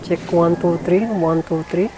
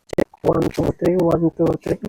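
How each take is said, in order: First: The voice carries unfiltered background noise. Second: The voice has background noise filtered out. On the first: "no noise reduction" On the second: "itatry naman natin guys yung noise reduction nya"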